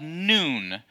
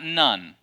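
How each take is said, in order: First: It does not sound like the word nun. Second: It sounds like the word nun. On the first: The speaker calls it right. "Joshua the son of Nun" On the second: The speaker calls it wrong. "not Nun. Nun are the great ladies who are in a convent"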